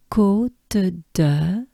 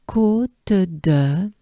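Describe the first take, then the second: No difference in how they are said.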